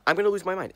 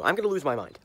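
First: Exasperated outburst. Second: Said in the usual way. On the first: Real, not acted. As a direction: let the repeat explode in frustration. Repeats threat, escalating.

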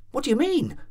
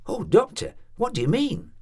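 First: High, frightened insistence, falling hard; panicked landlady repeating herself, much higher. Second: High, alarmed plea, rising at the end; anxious landlady begging to know, rising. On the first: Landlady frantically repeating her question to the doctor, frightened. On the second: Landlady pleading with the doctor, alarmed and rising. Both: A narrator's reading.

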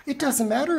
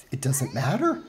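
First: Higher, exasperated repeat. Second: Said in the usual way. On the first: Real, not acted. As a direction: throw it up in exasperation.

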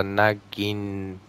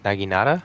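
First: "Naginata" drawn out, feeling through each syllable; unsure pronunciation. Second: "Naginata" said quicker, in one go, rising at the end; questioning pronunciation. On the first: Gamer attempting an unfamiliar weapon name, "Naginata" slowly sounded out. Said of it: "that terrible pronunciation". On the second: Gamer checking an unfamiliar weapon name, "Naginata" with questioning rise. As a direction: try "Naginata" as a tentative question. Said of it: "don't know if I'm saying that right". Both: Real, not acted.

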